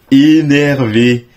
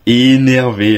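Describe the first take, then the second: First: Slow, drawn-out, louder énervé; savouring the word énervé; stretched hype. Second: Said in the usual way. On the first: Real, not acted. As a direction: drag out énervé with excitement.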